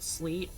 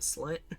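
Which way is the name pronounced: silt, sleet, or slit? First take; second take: sleet; slit. First: The name sounds like sleet. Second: The name sounds like slit. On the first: "sometimes I pronounce it sleet" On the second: "you could technically pronounce it slit"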